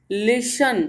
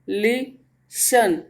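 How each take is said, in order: First: Said in the usual way. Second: listen very slowly as ली, then शन; split into syllables. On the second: Shown as a demonstration. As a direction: break listen in two with a clear pause. (Listen को दो टुकड़ों में, रुककर बोलें) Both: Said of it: "टू syllable word हो गया".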